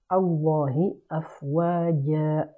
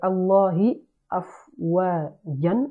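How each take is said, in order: First: The last word ends with a lengthened vowel. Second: The last word ends with an n sound. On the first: The speaker calls it right. "je dirais plutôt" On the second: The speaker calls it wrong. "au lieu de dire"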